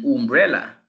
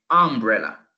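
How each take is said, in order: First: "umbrella" with the U said as in "you"; "umbrella" with a "you" sound at the start; wrong umbrella. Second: Careful English "umbrella" starting with "uh"; correct umbrella. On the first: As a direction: umbrella said "yoom-brella". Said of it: "Porque no dicen umbrella". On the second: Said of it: "sino que umbrella". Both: Shown as a demonstration.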